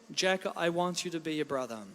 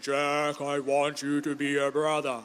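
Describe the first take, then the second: First: It is said in his normal voice. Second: It is said in a deep voice.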